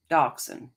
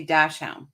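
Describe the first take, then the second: First: Dachshund said as dock-sun; German-style dachshund. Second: Dachshund said as tash-hown; dash hound way. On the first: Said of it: "and you say dachshund". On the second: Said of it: "And I say dachshund". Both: Shown as a demonstration.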